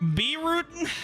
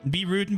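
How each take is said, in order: First: It has a strong Western cowboy accent. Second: It has a weak Western cowboy accent. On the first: The speaker calls it right. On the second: The speaker calls it wrong.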